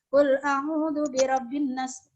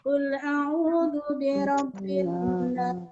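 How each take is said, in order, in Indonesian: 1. Vokal pada kata terakhir dibaca pendek. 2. Vokal pada kata terakhir dibaca panjang. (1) "itu tidak boleh, salah" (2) "Kita panjangkan lagi"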